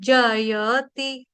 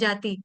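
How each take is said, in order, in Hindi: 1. तीनों अक्षर बोले जाते हैं, साफ 'ya' के साथ। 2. 'ya' छूट जाता है और पहला स्वर लंबा हो जाता है। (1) "य का उच्चारण खास तौर पे साफ साफ होना चाहिए" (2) "कई बार गलती से जाति बोल देते हैं"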